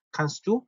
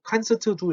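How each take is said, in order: First: "kannst du" run together as one word, "kanstu"; quick, joined-up "kannst du"; linked pronunciation. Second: "kannst du" broken into separate syllables, with extra vowels after s and t; overcareful, unlinked "kannst du"; wrong separated reading. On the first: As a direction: link "kannst du" smoothly, dropping the separate t. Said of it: "이렇게 같이 그냥 연음으로". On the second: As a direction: say "kannst du" choppily as kan-seu-teu du. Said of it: "이러지 마시고". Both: Shown as a demonstration.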